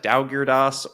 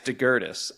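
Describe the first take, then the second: First: The name starts with a 'daw' sound. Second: The name starts with a short 'deh' sound. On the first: This is how the spelling suggests it is said. The speaker calls it wrong. "it looks like Daugirdas" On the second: This is how the person says his own name. The speaker calls it right. "it's DeGurtis"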